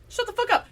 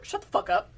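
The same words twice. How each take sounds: First: High, loud outburst with fuck hit hardest; exasperated shout. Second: Hissed through the teeth, high; harsh whispered shut up. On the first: Ranting to cohosts about the neighbor, a sudden loud high outburst. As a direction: blow up at her. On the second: Ranting to podcast cohosts about a neighbor, hissed contempt. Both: Acted.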